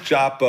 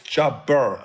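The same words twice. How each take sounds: First: The final r sound is dropped. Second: The final r sound is pronounced. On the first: The speaker calls it wrong. "It's not chopper" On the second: The speaker calls it right. "there's an R on the end"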